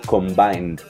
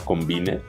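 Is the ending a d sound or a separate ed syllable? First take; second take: d sound; ed syllable. First: The ending is just a d sound. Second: The ending is a separate ed syllable. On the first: The speaker calls it right. "ese ed no suena como ed, sino debe sonar... como combined" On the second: The speaker calls it wrong. "como lo pronunciarán ustedes"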